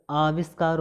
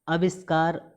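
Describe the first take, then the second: First: आविष्कार opening on long "aa"; long first vowel. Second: आविष्कार with short first a, "aviskaar"; wrong short vowel. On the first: Teacher correcting students, long-aa आविष्कार. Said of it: "होता है". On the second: Teacher showing the misspelling, short-a आविष्कार. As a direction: clip the opening of आविष्कार to "a". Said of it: "आविष्कार होता है". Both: Shown as a demonstration.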